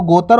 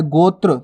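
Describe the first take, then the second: First: गोतर with a full vowel split between त and र; wrong pronunciation. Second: गोत्र with त्र as one tight cluster; right pronunciation. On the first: Teacher showing pupils the wrong way to say गोतर. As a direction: say गोतर as go-ta-r, the cluster broken apart. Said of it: "इस प्रकार से नहीं लिखा जाएगा गोत्र". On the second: Teacher showing pupils the correct गोत्र. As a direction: say गोत्र as go-tra, no vowel between त and र. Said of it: "तो आपको उच्चारण भी सीखना है". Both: Shown as a demonstration.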